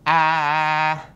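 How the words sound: The vowel sounds flat and thin. The speaker calls it wrong. "Kalau flat kayak gini"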